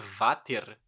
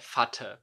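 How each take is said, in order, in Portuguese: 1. A palavra começa com som de v. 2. A palavra começa com som de f. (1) "Não é Vater" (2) "o V, ele tem som de F"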